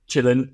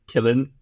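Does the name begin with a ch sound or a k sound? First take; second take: ch; k. First: The name begins with a ch sound. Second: The name begins with a k sound. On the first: This is the agreed pronunciation. "I'm saying Chillin because you told me that's how it should be pronounced" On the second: This is how other outlets say it. "a lot of other news outlets say Killin"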